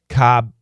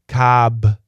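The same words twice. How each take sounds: First: The final b is stopped, not released. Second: The final b is fully released.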